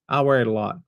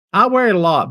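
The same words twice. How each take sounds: First: Said in the usual way. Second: "I wear it a lot" said loud and proud; emphatic. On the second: Shown as a demonstration. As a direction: belt out "I wear it a lot" with gusto.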